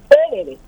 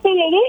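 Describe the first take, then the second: First: The stress is on the first syllable. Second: The stress is on the last syllable. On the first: The speaker calls it wrong. "cuando sigo poniendo sobre la primera" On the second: The speaker calls it right. "es normal"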